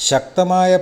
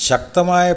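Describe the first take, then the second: Both takes have the same delivery.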